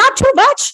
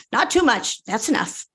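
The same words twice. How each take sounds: First: Higher and louder, urgent; urgent warning. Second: Said in the usual way. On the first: Acted. Young woman warning Margaret at the bottle, urgent and loud. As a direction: call out to stop her pouring.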